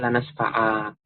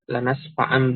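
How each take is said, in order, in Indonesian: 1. Kata itu berakhir dengan vokal a panjang. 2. Kata itu berakhir dengan bunyi sengau seperti n. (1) "kalau di waqaf nanti dibaca dengan alif" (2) "Kalau dibaca wasal maka nunnya dibaca"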